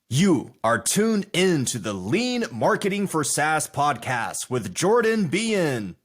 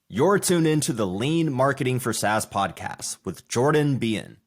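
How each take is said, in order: First: It is said like an enthusiastic boxing announcer. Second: It is said in a calmer, relaxed way.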